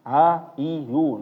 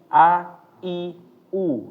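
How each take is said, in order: First: The vowel onsets are weak and unclear. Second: Each vowel starts with a firm, clear onset. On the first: The speaker calls it wrong. "Nah, itu keliru" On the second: The speaker calls it right. "Harus benar-benar keluar dari bawah"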